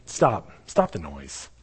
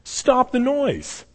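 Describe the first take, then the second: First: "Stop, stop the noise" slow, low and steady; the epitome of calm, hushing a crowd; calm, low command. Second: "Stop the noise" raised high and very slow; bemused high plea to stop; high, drawn-out command. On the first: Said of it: "you're telling them". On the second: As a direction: stretch "Stop the noise" out, pitched up. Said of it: "he's just like". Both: Retold or imitated.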